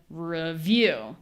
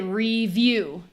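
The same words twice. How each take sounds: First: The first vowel is reduced and unstressed. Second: The first vowel is a full ee sound. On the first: The speaker calls it right. "instead of review" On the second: The speaker calls it wrong. "like people say review"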